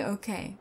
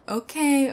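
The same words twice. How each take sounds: First: Quieter, lower okay; soft okay. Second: Louder, falling okay; firm okay. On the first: Intruder backing down quietly before his captor. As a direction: let it drop, backing down. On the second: Intruder conceding loudly to his captor. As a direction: cut him off with it. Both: Real, not acted.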